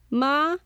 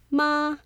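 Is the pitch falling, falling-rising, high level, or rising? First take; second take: rising; high level. First: The pitch rises from mid to high. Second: The pitch stays high and level.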